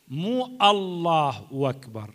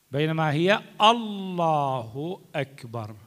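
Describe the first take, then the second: First: الله أكبر said slowly as "allah wakbar"; مو stressed, then the joined wa in أكبر; slow wrong form. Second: الله أكبر said slowly with a clean hamza; هي stressed, then الله أكبر spelled out; slow correct form. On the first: Teacher contrasts the wrong takbir. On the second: Teacher models the right takbir slowly. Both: Shown as a demonstration.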